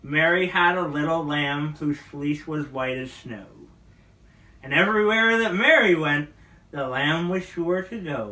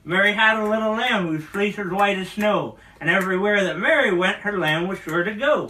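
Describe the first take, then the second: First: It is said at a normal pace. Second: It is said at a faster pace.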